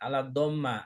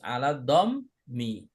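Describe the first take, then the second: First: The last word ends with an a vowel. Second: The last word ends with an i vowel. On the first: The speaker calls it wrong. "jangan ala dhamma" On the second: The speaker calls it right. "Ini harus ala dhammi"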